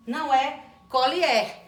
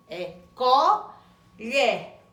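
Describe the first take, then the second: First: Put-on colher said with plain l, as a child might; colher without the lh sound; wrong colher. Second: Colher very slow with clear lh; correct colher, slow. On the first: Teacher contrasting a child's wrong colher. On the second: Teacher modeling the correct colher slowly. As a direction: draw out colher, lh clearly voiced. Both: Shown as a demonstration.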